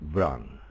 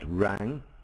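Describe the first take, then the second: First: The name begins with a consonant before R. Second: The name begins directly with an R sound. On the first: The speaker calls it right. "the W is actually pronounced I I in his name" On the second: The speaker calls it wrong. "it's not Rang"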